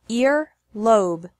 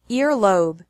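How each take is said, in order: First: The syllables are separated by a pause. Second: The syllables run together without a pause. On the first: "once with the syllables separated" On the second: "once normally"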